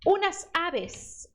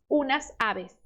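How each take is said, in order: First: Unas aves drawn out slowly, unas stressed; slow model phrase. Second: Said in the usual way. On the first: Shown as a demonstration. Teacher modelling the plural for the student. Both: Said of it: "Então seria".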